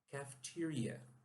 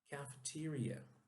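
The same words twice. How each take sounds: First: It is said with English pronunciation. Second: It is said with English pronunciation.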